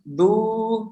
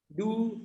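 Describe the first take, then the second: First: The vowel is a somewhat long 'u'. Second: The vowel sounds like an 'a'. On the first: The speaker calls it right. "Agak panjang" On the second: The speaker calls it wrong. "pakai pelafalan da. Du kayak gitu. Itu kurang tepat"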